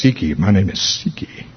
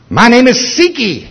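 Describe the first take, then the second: First: Low, soft, eerie growl; the demon's deep voice saying Siki. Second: Lifted, eerie voice unlike his own; the demon's first, higher version of the line. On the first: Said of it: "it said in a deep voice". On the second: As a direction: let the demon taunt from up high. Demon names itself. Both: Retold or imitated.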